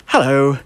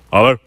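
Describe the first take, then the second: First: Courteous, measured phone hello; polite business greeting. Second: Very short, offhand questioning hello; curt phone answer. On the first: Shown as a demonstration. Roofer answers business phone properly, polite greeting. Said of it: "you would say something like". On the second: Retold or imitated. Roofer answers his business phone, curt hello. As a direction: toss out a brief hello, rising. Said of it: "he goes".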